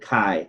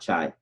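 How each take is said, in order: First: The word begins with a k sound. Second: The word begins with a ch sound. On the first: The speaker calls it right. "you pronounce it Chi" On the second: The speaker calls it wrong. "not Chai"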